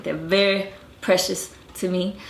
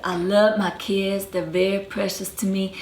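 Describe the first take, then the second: First: Non-rhotic "very", R left out; R dropping. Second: Georgia accent quote, retold; Georgia R-dropping accent. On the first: Shown as a demonstration. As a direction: repeat "They're very precious to me" dropping the R in "very". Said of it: "they don't even say the R's intervocalically". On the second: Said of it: "She said".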